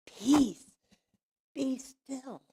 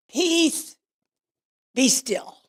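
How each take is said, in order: First: High-pitched call softening at the end; calming command. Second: High, loud command that falls away; commanding cry. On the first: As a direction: repeat it to settle the storm, easing off. Command repeated, settling down. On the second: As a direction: call it out to still a raging storm. Jesus commands the storm, retold. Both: Retold or imitated.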